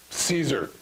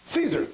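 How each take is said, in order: First: "Caesar" said much lower, with a settled falling tune; knowing answer. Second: "Caesar" said much higher, like a hesitant question; unsure guess. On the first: Preacher shows the crowd's real answer, low and certain. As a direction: drop "Caesar" low and certain, like everyone knows it. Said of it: "They said it like this". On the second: Preacher shows the crowd's wrong answer, a high unsure guess. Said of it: "They didn't say it like that". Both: Shown as a demonstration.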